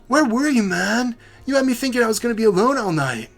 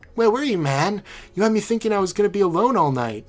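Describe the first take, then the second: First: The voice is pitched higher. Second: The voice is pitched lower.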